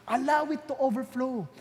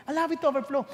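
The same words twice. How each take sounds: First: Slow emphasis. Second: Said in the usual way. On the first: Shown as a demonstration.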